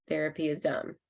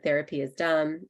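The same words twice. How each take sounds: First: "Therapy is dumb" said softer, dropping at the end, no rise on "dumb"; falling statement tune. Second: Said in the usual way. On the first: Shown as a demonstration. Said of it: "you hear how my voice goes down, like it's a statement". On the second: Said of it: "you hear how my voice goes down".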